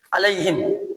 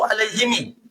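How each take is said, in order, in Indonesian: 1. Kata ini berakhir dengan bunyi him. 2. Kata ini berakhir dengan bunyi himi.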